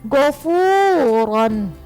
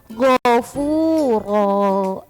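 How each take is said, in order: First: The word ends with an n sound. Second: The word ends with a long vowel. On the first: The word is read as written, with the nunation. "gofuron kan ini ada fathah tanwin di akhir kalimat" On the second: The word is read with a stop at the end of the sentence. "jadi kalau kita wakofkan jadinya gofuro"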